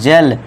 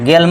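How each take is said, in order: First: It begins with a j sound. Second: It begins with a hard g sound. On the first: The speaker calls it right. "जा करना है" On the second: The speaker calls it wrong. "गेल मत पढ़ना"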